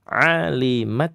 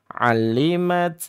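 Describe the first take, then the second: First: The L sound is single and short. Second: The L sound is doubled and held. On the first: The speaker calls it right. "Alimat begitu ya" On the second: The speaker calls it wrong. "lamnya terbaca tasydid"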